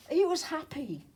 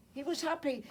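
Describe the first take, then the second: First: HE raised high and hit hard; proud, emphatic he; stress on he. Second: Insisting that he truly was happy; stress on was. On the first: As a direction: lift the word he well above the rest. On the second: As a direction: press the word was. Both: Shown as a demonstration.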